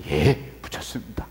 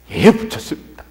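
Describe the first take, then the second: First: Low, soft, swallowed answer; submissive reply. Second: Brisk obedient answer at full voice; dutiful reply. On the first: Junior pastor answering senior pastor about tickets, subdued. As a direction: answer obediently, keeping the resentment down. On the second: Junior pastor reporting to senior pastor, dutifully compliant. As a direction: report it smartly to your superior. Same daily answer, repeated. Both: Acted.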